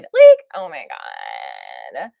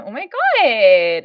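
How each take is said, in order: First: Very low, slow, creaky "Like, oh my God"; vocal fry Valley Girl. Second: Put-on slow, drawn-out higher Valley Girl gasp. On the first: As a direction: drop into a deep gravelly fry on "oh my God". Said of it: "I can do the vocal fry too". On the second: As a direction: stretch "Oh my God" like a mall Valley Girl. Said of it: "would you really like me to do the Valley Girl voice". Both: Shown as a demonstration.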